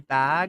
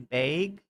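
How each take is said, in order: First: The vowel is said in a general American way. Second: The vowel is said the Wisconsin way. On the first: "they don't say bag" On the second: "in Wisconsin, they say bag"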